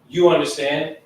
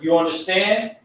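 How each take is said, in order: First: The pitch falls at the end. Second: The pitch rises at the end. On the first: It states that the listener understands. "like a statement" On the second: It asks whether the listener understands. "as a question"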